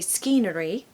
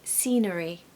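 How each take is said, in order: First: The word starts with an s followed by k. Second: The word starts with a plain s sound. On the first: The speaker calls it wrong. "we're not going to say scenery" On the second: The speaker calls it right. "The word scenery has a silent C"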